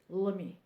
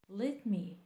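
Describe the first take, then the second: First: The words are run together and reduced. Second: Both words are said fully and separately. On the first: The speaker calls it right. "Say as a native speaker" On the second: The speaker calls it wrong. "It's wrong"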